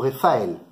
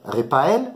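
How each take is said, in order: First: The middle consonant is an f sound. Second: The middle consonant is a p sound. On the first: "On peut dire paix ou fait" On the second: "On peut dire paix ou fait"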